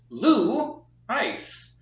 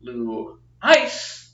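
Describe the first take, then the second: First: LOU Ice, first syllable high and drawn out; teacher's careful demo stressing LOU in "Lou Ice". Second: Lou ICE, second syllable loud and punched; wrong-way demo hitting ICE in "Lou Ice"; stress on ICE. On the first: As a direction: punch "Lou" slowly, let "Ice" fall away. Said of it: "accent is on the first syllable". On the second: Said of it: "which means that it is not". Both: Shown as a demonstration.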